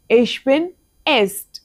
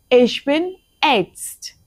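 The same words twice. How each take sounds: First: Slow repeat stressing bin. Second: Very slow, careful sentence; very slow model. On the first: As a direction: say it again for copying. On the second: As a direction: draw it out for learners. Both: Shown as a demonstration.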